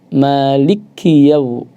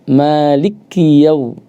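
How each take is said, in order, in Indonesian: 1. Bunyi l dibaca ganda dan ditekan keras. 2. Bunyi l dibaca ganda dan ditekan keras.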